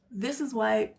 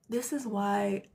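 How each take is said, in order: Both takes have the same delivery.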